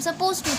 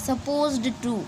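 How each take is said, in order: First: No d sound is heard before 'to'. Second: A d sound is heard before 'to'. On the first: "हम डी वाला sound को आ, नहीं consider करते हैं और बोलते भी नहीं है" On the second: "ये हार्ड टू से है"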